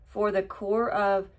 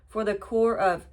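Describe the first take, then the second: No difference in how they are said.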